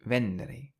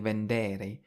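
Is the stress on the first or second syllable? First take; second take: first; second. First: The stress is on the first syllable. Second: The stress is on the second syllable. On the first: The speaker calls it right. "we've stressed the syllable before the e" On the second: The speaker calls it wrong. "we don't say vendere"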